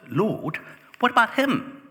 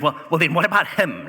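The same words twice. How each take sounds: First: High, loud, whining question; whiny Peter. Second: High, loud, indignant whine; whiny Peter. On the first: Peter points at John and complains to Jesus, high and whining. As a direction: play Peter as a petulant, nosy disciple. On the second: Peter sees John walk by and whines to Jesus, high and loud. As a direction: make him a jealous brother tattling. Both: Acted.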